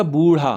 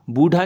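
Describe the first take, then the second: First: बूढ़ा as boo-rhaa, retroflex flap; बूढ़ा with dotted ढ़ sound; correct flapped rh. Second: बूढ़ा as boo-dhaa, hard retroflex stop; बूढ़ा with undotted ढ sound; wrong hard dh. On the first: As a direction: flick the tongue in बूढ़ा. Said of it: "इसमें नीचे बिंदी लगेगी". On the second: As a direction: say बूढ़ा without any flap. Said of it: "नहीं होता". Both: Shown as a demonstration.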